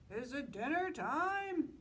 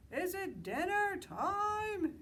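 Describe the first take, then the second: First: A high, slow goat's call; Mister Goat calls out, drawn out and high. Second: A very high, loud, slow bellow. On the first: Mister Goat calling to Moose, high and slow. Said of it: "he called". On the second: Sheep bellowing to Mister Moose, very high and loud. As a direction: Sheep bellows it out, dragging the words. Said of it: "he bellowed". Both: Acted.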